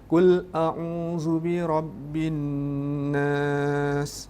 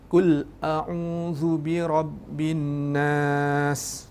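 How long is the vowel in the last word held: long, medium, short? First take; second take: medium; short. First: The final long vowel is held for four beats. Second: The final long vowel is held for two beats. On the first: "Empat harakat"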